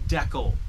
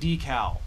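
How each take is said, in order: First: The word is said the Canadian way. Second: The word is said a non-Canadian way. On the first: "That's the way I say it. That's the way people in Canada say it" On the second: "I'm not saying decal"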